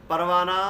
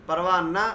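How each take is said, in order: Both takes have the same delivery.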